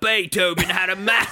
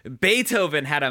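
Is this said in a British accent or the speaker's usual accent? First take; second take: British; usual. First: It is said in a put-on British accent. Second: It is said in the speaker's usual accent.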